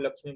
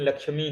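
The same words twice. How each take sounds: First: The final vowel is short. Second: The final vowel is long. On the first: The speaker calls it wrong. "कई लोग लक्ष्मी बोलते हैं" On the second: The speaker calls it right. "लक्ष्मी होता है, दीर्घ कर दीजिएगा"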